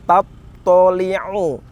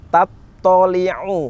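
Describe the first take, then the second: Both takes have the same delivery.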